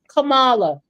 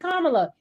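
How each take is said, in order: First: The first part does not sound like comma. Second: The first part sounds like the word comma. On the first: Other people keep saying her name this way. The speaker calls it wrong. "people continue to call her Kamala" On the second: This is how she says her own name. The speaker calls it right. "It's always been Kamala"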